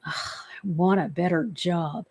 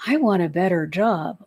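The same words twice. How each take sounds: First: Softer, fed-up "Ugh, I want a better job"; weary, resentful groan of a wish; resentful sigh. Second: Said in the usual way. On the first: Shown as a demonstration. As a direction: grumble it, sick of the job. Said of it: "if you are feeling resentful, angry". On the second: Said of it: "if you are feeling resentful".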